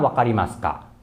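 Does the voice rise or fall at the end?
fall. The voice does not rise at the end.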